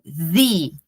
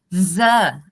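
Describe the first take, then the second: First: The vowel is a long 'ee' sound. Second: The vowel is a short, neutral 'uh' sound. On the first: "agora o som do E original... I" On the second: "o E com som de schwa"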